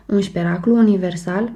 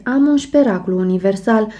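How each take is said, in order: First: Put-on childish exclaim. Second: Said in the usual way. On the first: A narrator's reading. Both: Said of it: "exclam copilărește".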